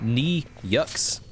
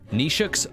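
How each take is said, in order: First: The middle sounds like a 'y' sound. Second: The middle sounds like a 'sh' sound. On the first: This is a guess from reading the spelling. The speaker calls it wrong. "that's how I'm reading it" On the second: This is how it is said in Italy. The speaker calls it right. "In Italy, it's more like Nishux?"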